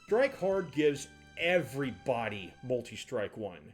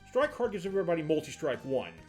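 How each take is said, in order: First: The word everybody is strongly stressed. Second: The word everybody is not specially stressed. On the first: "Let me change the emphasis" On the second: "the part that I didn't emphasize"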